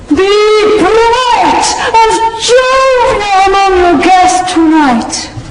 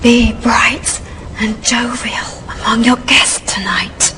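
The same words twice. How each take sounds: First: It is delivered like a terrible, hammy stage actor. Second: It is delivered in a quiet whisper.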